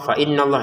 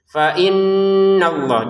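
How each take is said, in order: First: The nasal sound is cut short. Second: The nasal sound is held for two full beats. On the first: The speaker calls it wrong. "ya kurang" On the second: The speaker calls it right. "Sempurnanya dua harokat, jangan kurang, jangan lebih"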